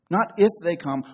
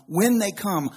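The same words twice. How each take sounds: First: "if" hit firmly to set it aside; stress on if. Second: "when" punched, a little higher and louder; "when" stressed firmly, sure and emphatic. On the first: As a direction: stress "if" as the wrong word, then let it go. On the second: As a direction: land hard on "when" as the truth. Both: Shown as a demonstration.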